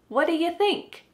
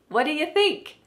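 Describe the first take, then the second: No difference in how they are said.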